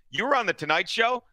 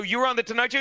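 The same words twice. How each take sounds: First: Mildly mocking question with a rise at the end; mock disbelief. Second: Slightly higher mocking question that rises at the end; mock disbelief. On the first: Needling a boastful guest, mock disbelief. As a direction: needle him with fake surprise. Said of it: "I would interrupt him and say". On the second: Retelling the taunt to cohost, mock disbelief. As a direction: tease him by faking surprise. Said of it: "I go".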